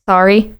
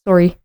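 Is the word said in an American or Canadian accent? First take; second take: American; Canadian. First: The word is said in an American accent. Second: The word is said in a Canadian accent.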